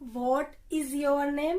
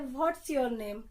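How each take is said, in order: First: 'What is' is said as two full words. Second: 'What is' is shortened to 'what's'. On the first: "जैसे बोलते हैं ना व्हाट इज your name" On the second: "व्हाट इज को हम short में व्हाट्स बोलते हैं"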